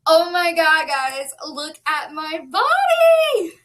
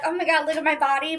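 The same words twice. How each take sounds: First: Louder, slow, thrilled reveal; gushing over her own body, drawn out; real excitement. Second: Quick, light imitation of a show-off; tossed-off mock brag, said fast; mock bragging quote. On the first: Real, not acted. Vlogger showing viewers her weight loss, thrilled and loud. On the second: Vlogger mocking show-off posts, a quick light brag. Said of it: "I don't usually jump on here and be like".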